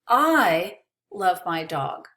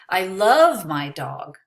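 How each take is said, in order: First: The word I carries the emphasis. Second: The word love carries the emphasis. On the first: Someone else may not love the dog. "Maybe you don't love my dog, but I do" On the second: The feeling is more than liking. "I don't just like her, I love her"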